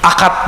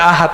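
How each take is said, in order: First: The middle consonant is a hard k sound. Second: The middle consonant is a soft h sound.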